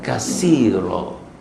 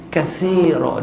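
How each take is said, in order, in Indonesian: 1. Huruf tengah itu bunyi s. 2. Huruf tengah itu bunyi th. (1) "bukan kasira" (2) "kathira dia sa, bukan sin"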